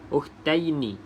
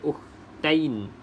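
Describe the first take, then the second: First: The word ends with a short i vowel. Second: The word ends on the consonant n. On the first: The speaker calls it right. "bermaksud yi ada baris bawah ya" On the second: The speaker calls it wrong. "jangan baca ukhtain"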